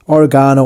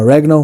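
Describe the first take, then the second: First: Oregano with the stress on GA, o-ri-GAH-no; oregano variant. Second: Oregano with the stress on REG, o-REG-ano; alternative oregano. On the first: Cook offers viewers either name, oregano stressed on GA. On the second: Cook offers viewers another name, oregano stressed on REG. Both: Shown as a demonstration. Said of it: "whatever you wanna call it".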